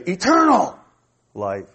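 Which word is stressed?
eternal. The stress falls on the word eternal. The focus is on how long the life lasts. "And you're emphasizing how long it is"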